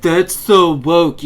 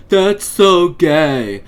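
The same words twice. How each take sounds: First: Slow, loud sneering impression of an anti-woke guy; mocking quote. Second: Slow, loud taunting high-schooler voice, leaning on so; mocking quote. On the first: Mocking anti-woke people's catchphrase, slow loud sneer. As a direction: drag it out loud with a sneer, stressing so. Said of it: "I heard something similar all the time". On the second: Mocking high school bullies' taunt, slow and loud. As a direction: stretch it out like a dumb teen bully. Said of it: "I heard something similar all the time in high school".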